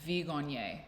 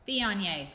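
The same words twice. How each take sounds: First: Viognier with a hard G; wrong pronunciation. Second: Viognier as "vee-on-YAY", silent G; correct pronunciation. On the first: Shown as a demonstration. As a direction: say Viognier as "vee-GON-yay". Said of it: "So there's no G". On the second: Retold or imitated. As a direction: copy the recording, louder, Viognier without a G. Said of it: "a little mouth that goes".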